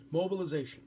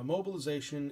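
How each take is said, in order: First: Mobilization said higher and louder, falling at the end; emphasized term. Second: Said in the usual way. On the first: Shown as a demonstration. Teacher stressing a quiz term to students, higher and louder. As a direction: announce Mobilization as a key word. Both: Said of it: "definitely emphasize it".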